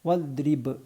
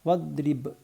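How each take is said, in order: Both takes have the same delivery.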